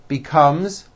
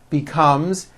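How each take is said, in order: The two takes are said the same way.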